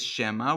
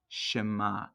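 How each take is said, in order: First: The word is said hesitantly, like an unsure question. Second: The word is said firmly, like a confident statement. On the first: Perhaps it is so. The speaker calls it wrong. "We shouldn't read this as Shema" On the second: Hear this, it is certain. The speaker calls it right. "We should read this as Shema. That sounds much better"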